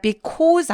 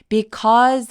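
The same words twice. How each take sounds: First: The word is said short and clipped. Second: The word is said drawn out and long. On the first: The speaker calls it wrong. "because 아니고" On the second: The speaker calls it right. "because라고 더 길게 발음하는 거"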